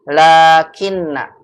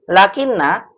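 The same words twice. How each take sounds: First: The first vowel is held long. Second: The first vowel is kept short. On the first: The speaker calls it right. "La-nya dibaca apa? Panjang" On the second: The speaker calls it wrong. "bukan lakinna"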